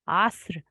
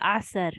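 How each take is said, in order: First: The word is said as a single syllable. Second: An extra vowel splits the word into two syllables. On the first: The speaker calls it right. "one syllable" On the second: The speaker calls it wrong. "I hear people say asr, but there's no fatha here on top of the sad"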